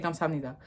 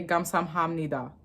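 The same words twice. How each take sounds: First: "Kamsahamnida" quick and soft as kam-sam-nida; native-style contraction. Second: "Kamsahamnida" with every syllable sounded; "Kamsahamnida" spelled out as kam-sam-ham-ni-da; full pronunciation. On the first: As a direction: merge "Kamsahamnida" into four light syllables. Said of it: "I just hear them say". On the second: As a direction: keep the "ham" distinct in "Kamsahamnida". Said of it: "never heard a Korean person say". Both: Shown as a demonstration.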